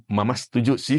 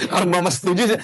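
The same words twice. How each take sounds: First: Said in the usual way. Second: "setuju sih" higher and drawn up at "sih"; reluctant intonation. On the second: Shown as a demonstration. Mother agreeing to her husband with grudging intonation. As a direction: let "setuju sih" rise on "sih" as if unconvinced. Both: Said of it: "kalau udah intonasi udah".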